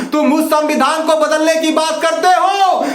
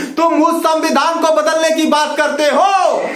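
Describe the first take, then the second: The two takes are said the same way.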